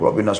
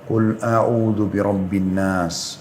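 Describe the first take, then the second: First: It is recited fast and rushed. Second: It is recited slowly and clearly.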